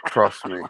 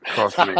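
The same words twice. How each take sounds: First: Said in the usual way. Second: Trust me said through a laugh. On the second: Real, not acted. To Carl, insisting through a chuckle. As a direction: let the laugh break into trust me. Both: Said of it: "You can hear by my voice".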